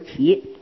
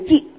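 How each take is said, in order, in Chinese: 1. 它读的是动词的读音。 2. 它读的是名词的读音。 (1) "骑马当动词我们读骑" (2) "当名词一匹马就叫做一骑，这里叫读骑"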